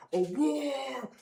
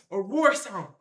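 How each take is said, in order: First: Long drawn-out mock roar; slow, roaring imitation of a lion; imitated lion roar. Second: Said in the usual way. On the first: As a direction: stretch "roar" slowly like a lion.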